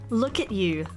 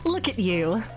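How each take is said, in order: First: It is said in the speaker's usual accent. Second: It is said in a put-on American accent.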